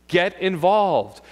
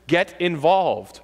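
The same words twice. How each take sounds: First: "Get involved" said slowly, each word weighted, "involved" hit hardest; slow emphatic stress. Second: "get involved" drawn out slowly, "get" hit hardest; slow down and punch "get" in "get involved"; slow emphatic stress. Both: Shown as a demonstration.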